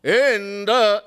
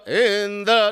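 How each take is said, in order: First: "Indra" chanted with the voice taken up; intonation taken up. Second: "Indra" chanted with the voice taken down; intonation taken down. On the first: Preacher shows the intended swar, "Indra" intoned upward. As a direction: lift the voice on "Indra". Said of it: "Instead of taking the voice up". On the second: Preacher shows the changed swar, "Indra" intoned downward. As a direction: drop the voice on "Indra". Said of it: "they took it down". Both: Shown as a demonstration.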